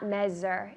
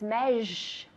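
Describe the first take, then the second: First: The middle consonant sounds like a plain s. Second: The middle consonant sounds like sh. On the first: The speaker calls it wrong. "That S is not measure" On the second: The speaker calls it right. "It's measure. Sh. As if it were sh"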